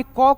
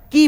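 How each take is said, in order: First: Bare consonant क said as ka; plain ka. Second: की said kee, long i, falling. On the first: Teacher says क as ka, the wrong way here. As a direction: say क as plain ka, no vowel added. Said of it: "क को क नहीं बोलना है". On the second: Teacher shows the right way, kee. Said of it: "की बोलना है". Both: Shown as a demonstration.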